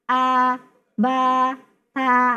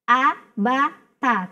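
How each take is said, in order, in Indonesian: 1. Vokalnya dipanjangkan. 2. Vokalnya dibiarkan pendek dan tegas. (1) "Ketika masuk kepada mat baru a ba ta" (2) "maka tegaskan a ba ta"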